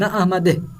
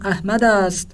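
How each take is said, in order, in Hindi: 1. छोटी 'e' ध्वनि नाम के साथ जुड़ती है। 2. पूरा शब्द 'ast' नाम के बाद बोला जाता है।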